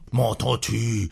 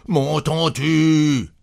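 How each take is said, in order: First: Exasperated question, held in; first angry demand, not yet raised; restrained fury. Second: High, stretched-out angry cry; trembling fury. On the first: Husband shaking his wife, exasperated but restrained. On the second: Husband shaking his wife, furious repeated demand. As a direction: drag the words out in rage. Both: A narrator's reading. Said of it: "Il tremblait de fureur".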